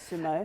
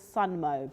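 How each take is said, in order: First: No n sound comes before the m. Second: An n sound comes before the m. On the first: The speaker calls it right. "So we say sumo" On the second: The speaker calls it wrong. "I thought it was Sunmo, but I don't think that's the right way to say it"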